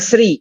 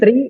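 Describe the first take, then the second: First: It begins with a plain s sound. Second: It begins with a plain t sound. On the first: "jangan sri" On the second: "Jangan tri"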